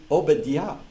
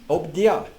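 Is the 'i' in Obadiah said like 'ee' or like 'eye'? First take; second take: ee; ee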